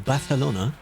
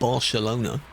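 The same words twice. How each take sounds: First: The c is said with a lisped th sound. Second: The c is said with a plain s sound. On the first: This is the way the locals say it. "they say it like that in the same way they go Barcelona" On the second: This is not the way the locals say it. "not Barcelona"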